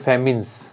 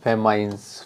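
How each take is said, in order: First: The second syllable sounds like 'min'. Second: The second syllable sounds like 'mine'. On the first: The speaker calls it right. "उच्चारण शायद इसका ऐसे करते हैं" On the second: The speaker calls it wrong. "या फेमाइन नहीं होता"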